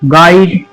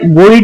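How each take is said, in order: First: The u is silent, like 'gide'. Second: The u is sounded, like 'gooide'. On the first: The speaker calls it right. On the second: The speaker calls it wrong.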